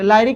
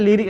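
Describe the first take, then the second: First: The first vowel is a long 'eye' sound. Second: The first vowel is a short 'ih' sound. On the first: The speaker calls it wrong. "लाइरिक नहीं" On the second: The speaker calls it right. "लिरिक पढ़ा पढ़ा जाता है"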